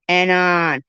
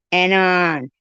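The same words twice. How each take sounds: The two takes are said the same way.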